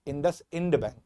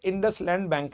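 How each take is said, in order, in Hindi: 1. दूसरा हिस्सा 'ind' की तरह बोला जाता है। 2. दूसरा हिस्सा 'land' की तरह बोला जाता है। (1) "इंडस इंड बैंक है" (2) "बेटा ये इंडस लैंड बैंक नहीं है"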